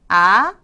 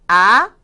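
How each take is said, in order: No difference in how they are said.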